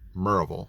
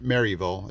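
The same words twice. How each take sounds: First: The syllables are run together into one slur. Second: The syllables are said separately and clearly. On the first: The speaker calls it right. "you just kind of run it all together like Maryland" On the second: The speaker calls it wrong. "It's not Maryville"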